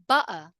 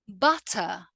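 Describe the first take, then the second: First: The T is cut off by a brief catch. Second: The T is clearly and fully pronounced. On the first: It sounds informal. "now let's look at the other way" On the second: It sounds very correct. "pronounce all of the words with a fully emphasized T"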